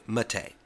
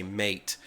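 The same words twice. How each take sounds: First: "mate" as muh-TAY, two syllables; correct Mate. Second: "mate" like roommate, one syllable MAYT; mate as English word. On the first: Correcting the one-syllable habit, muh-TAY. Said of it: "but it's actually mate". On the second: The old mistake with the word, MAYT. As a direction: say "mate" like checkmate. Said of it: "not to see that word and say". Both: Shown as a demonstration.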